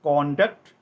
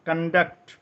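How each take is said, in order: First: The stress is on the first syllable. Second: The stress is on the second syllable. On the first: It is used as a noun meaning behaviour. "കോണ്ടക്ട് നൗണായിട്ട് ഉപയോഗിക്കുമ്പോൾ" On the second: It is used as a verb meaning to organize. "കണ്ടക്ട് വെർബായിട്ട് ഉപയോഗിക്കുമ്പോൾ"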